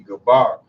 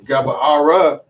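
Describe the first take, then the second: First: The word ends without an extra vowel sound. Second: The word ends with an extra vowel sound. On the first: The speaker calls it right. "you dropped that A and it's Gabar" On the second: The speaker calls it wrong. "if you spelt it and you said Gabara"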